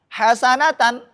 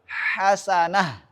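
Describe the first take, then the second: First: The word ends with a t and n sound. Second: The word ends with a soft h sound. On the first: The reading continues into the next word. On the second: The reading stops at this word.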